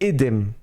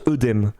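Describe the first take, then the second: First: The first vowel is a clear 'ay' sound. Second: The first vowel is a rounded 'uh' sound. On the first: This is the traditional, now rare pronunciation. "Traditionnel mais devenant rare, c'est édème" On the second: This is the common everyday pronunciation. "couramment, on prononce œdème dans le langage courant"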